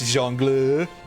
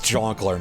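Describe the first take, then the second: First: It is said with the French pronunciation. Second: It is said as an anglicized 'jonkler'. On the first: "I should sort of know how it's pronounced" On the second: "it's Jonkler now"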